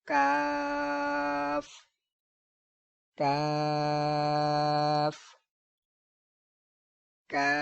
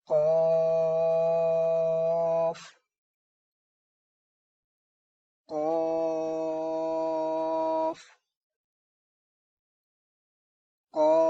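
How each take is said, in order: First: काफ very slow, light and thin; thin kaaf. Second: कॉफ very slow, thick and louder; long heavy qaaf. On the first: A teacher modelling the thin काफ. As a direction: stretch काफ out lightly, not heavy. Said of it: "इसको बारीक पढ़ना है". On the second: A teacher modelling the heavy कॉफ. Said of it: "इसको लंबा करेंगे और मोटी आवाज़ में पढ़ेंगे". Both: Shown as a demonstration.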